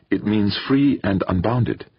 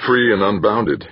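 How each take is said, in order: First: Slow, higher "free and unbounded" with a light Indian lilt. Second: Echoing. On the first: Addie explains her name's meaning, slow Indian lilt. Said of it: "the lilt in her accent". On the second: Bracknell echoes her words, plain male voice. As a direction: repeat "free" flatly back at her. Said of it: "he echoed". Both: A narrator's reading.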